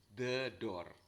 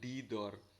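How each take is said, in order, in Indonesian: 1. Kata 'the' diucapkan dengan bunyi vokal pendek 'thuh'. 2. Kata 'the' diucapkan dengan bunyi vokal panjang 'thee'. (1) "Karena door hurufnya huruf D, huruf depannya, huruf mati ya" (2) "Kenapa kok bukan di door?"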